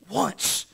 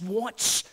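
First: Breathy whispered "Once"; whispered echo. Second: Said in the usual way. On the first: Real, not acted. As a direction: drop to a hushed whisper. Repeats word in hush.

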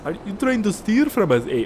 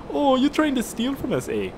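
First: High-pitched, botched Canadian turning Scottish; accidentally Scottish accent. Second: High-pitched, hammed-up Canadian accent; attempted Canadian accent. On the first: Retold or imitated. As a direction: attempt Canadian but land on a terrible Scottish accent. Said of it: "That was, like, Scottish". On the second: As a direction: do a bad Canadian guard, pitched way up. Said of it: "Well, a Canadian military base".

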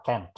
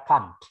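First: Can't with a flat front "a" as in cat, like kent; American pronunciation. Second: Can't with a broad open "ah" vowel, like kahnt; British pronunciation. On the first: Teacher contrasting the American can't for students, flat kent. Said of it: "Tapi kalau orang Amerika". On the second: Teacher showing students the British way, can't as kahnt. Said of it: "Kalau orang Inggris ini akan mengucapkannya". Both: Shown as a demonstration.

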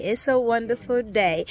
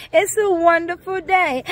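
First: Said in the usual way. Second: Excited exclamation. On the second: Acted. Third take raised.

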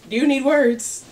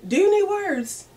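First: Rising sass on "you"; louder diva challenge, hit "you"; sassy question. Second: "you" pushed way higher and louder; high diva squeal. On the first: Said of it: "repeating line, different reads". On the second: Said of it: "repeated with higher pitch". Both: Pretend.

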